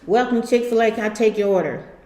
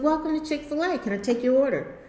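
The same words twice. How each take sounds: First: It sounds cold and unwelcoming. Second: It sounds kind and welcoming.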